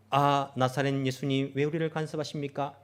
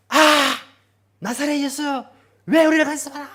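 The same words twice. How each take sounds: First: Said in the usual way. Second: Shouting high and loud. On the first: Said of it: "이렇게 외친 게 아니고". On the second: Shown as a demonstration. Possessed man shouting at Jesus, loud yell. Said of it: "큰 소리로".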